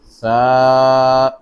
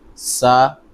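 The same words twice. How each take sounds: First: The first consonant is a lisped th sound. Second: The first consonant is a hissing s sound. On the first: The speaker calls it right. "the tip of the tongue touches the edge of the top two front teeth" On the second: The speaker calls it wrong. "You cannot say Sa"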